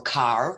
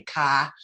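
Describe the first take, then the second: First: Said in the usual way. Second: "car" said Brooklyn-style without the r; Brooklyn accent. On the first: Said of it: "like, I would say". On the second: Shown as a demonstration. Recalling her childhood Brooklyn accent, car with no r. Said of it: "the Brooklyn accent, like, I would say".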